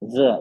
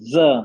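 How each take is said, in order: First: The consonant sounds light and soft. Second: The consonant sounds heavy and pressed. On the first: The speaker calls it right. "ये हल्का बिल्कुल नरम लेटर है ना" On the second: The speaker calls it wrong. "ज ज ज नहीं"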